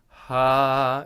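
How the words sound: The vowel starts with an audible breathy h. The speaker calls it wrong. "you start with a bit of a ha ha into each phrase"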